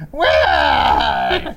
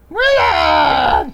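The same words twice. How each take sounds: First: Deep, breathy sultry call; sultry perfume ad. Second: High, loud sultry shout; sultry perfume ad. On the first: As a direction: call his name like a perfume ad. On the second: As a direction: shriek his name sultrily. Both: Retold or imitated. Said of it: "her beautiful, sultry voice saying".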